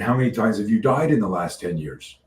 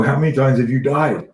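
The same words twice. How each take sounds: First: Said in the usual way. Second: "How many times have you died?" pitched higher and louder; emphatic repeat. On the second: Retold or imitated. Consultant re-asking the puzzled athlete "How many times have you died?", emphatic. Repeats question after her confused "What?.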